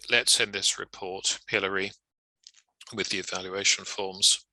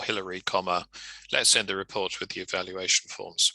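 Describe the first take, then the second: First: Dictating an email, the name in the middle; name tucked mid-sentence. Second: "Hillary, comma," spoken as dictation; dictating the comma aloud; name up front. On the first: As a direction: set "Hillary" apart with little pauses. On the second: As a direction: lead with the name, then carry on. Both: Shown as a demonstration.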